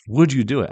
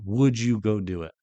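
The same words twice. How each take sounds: First: "would" hit louder and higher, pressing the question; pressing repeat. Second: Said in the usual way. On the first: Shown as a demonstration. Preacher repeats the question to listeners, then the manner, emphatic and louder. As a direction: push the question home, stress "would". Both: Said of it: "Truly ask yourself".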